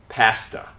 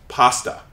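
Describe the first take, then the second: First: The word is said with a Canadian vowel. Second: The word is said with an American vowel. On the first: "my friends from Canada, or at least from Toronto, they pronounce it with ah" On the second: "I am American, so I pronounce this as pasta with an ah"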